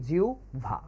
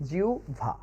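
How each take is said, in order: Both takes have the same delivery.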